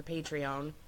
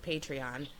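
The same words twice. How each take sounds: First: Patreon ending in "own"; alternate pronunciation. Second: Patreon ending in "ahn"; alternate pronunciation. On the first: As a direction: say Patreon as PAY-tree-OWN, long o. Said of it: "pronounced Patreon or Patreon". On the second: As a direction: say Patreon as PAY-tree-ahn. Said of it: "I think it's pronounced". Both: Shown as a demonstration.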